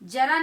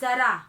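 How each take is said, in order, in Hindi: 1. यह j ध्वनि से शुरू होता है। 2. यह z ध्वनि से शुरू होता है।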